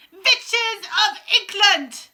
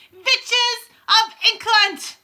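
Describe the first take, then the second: First: Very slow, high, loud summons; Grand High Witch shouting. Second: Grand High Witch yelling. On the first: Witch queen summoning the assembled witches, booming. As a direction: stretch it out like a ruling witch calling her coven. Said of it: "shouted the Grand High Witch". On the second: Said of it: "she yelled". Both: A narrator's reading.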